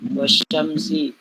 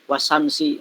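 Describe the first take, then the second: First: The consonant after 'wa' is a sh sound. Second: The consonant after 'wa' is a plain s. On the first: The speaker calls it right. "harusnya wasyamsi" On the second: The speaker calls it wrong. "Jadi baca wasamsi"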